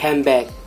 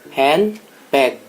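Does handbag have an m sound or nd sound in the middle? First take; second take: m; nd. First: The middle sound blends into an m sound. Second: The middle keeps a clear n and d sound. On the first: "di rapidly speech atau membaca secara cepat ... menjadi handbag. Handbag menjadi M, bukan N D" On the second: "Handbag itu kan handbag"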